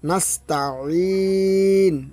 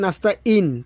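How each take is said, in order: First: The ee starts with a squeezed throat sound. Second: The ee starts with a plain glottal stop. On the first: We ask only you for help. The speaker calls it right. "আইন জেরে ই" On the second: We ask only you for calamity. The speaker calls it wrong. "আমরা যদি বলি"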